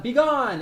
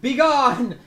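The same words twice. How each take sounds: First: Loud, high banishing yell; cleric's yell. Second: Loud, high banishing shout; commanding cleric. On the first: Game master as cleric banishing zombies, commanding yell. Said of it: "so Myra yells out". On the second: Cleric to zombies with holy symbol, commanding shout. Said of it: "and she says". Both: Acted.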